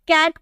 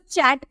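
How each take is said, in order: First: The word begins with a K sound. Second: The word begins with a CH sound. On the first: The speaker calls it right. "कैट को" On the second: The speaker calls it wrong. "चैट पढ़ने लगते हैं"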